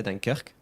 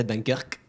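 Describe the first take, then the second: First: "Dunkirk" as "dan-KAIR-kuh", released ending; correct French pronunciation. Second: "Dunkirk" cut off at the final k; wrong pronunciation demo. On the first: Teacher correcting viewers, French "Dunkirk" with final e. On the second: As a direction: leave no vowel after "Dunkirk". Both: Shown as a demonstration. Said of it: "You say the E at the end".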